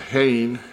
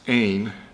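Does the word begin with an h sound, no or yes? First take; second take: yes; no. First: The word begins with an h sound. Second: The word begins with a vowel sound. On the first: The speaker calls it wrong. "I'm sorry, I pronounce it, no, can't pronounce it Hain" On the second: The speaker calls it right. "even though it looks like an H, it's Ain"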